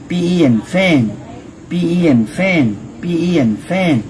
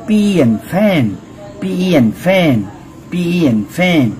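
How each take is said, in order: The two takes are said the same way.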